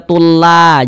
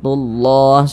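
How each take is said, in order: First: The 'll' sounds light and thin. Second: The 'll' sounds heavy and thick. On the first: The speaker calls it wrong. "jangan dibaca tullah" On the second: The speaker calls it right. "tapi ditebalkan tullah"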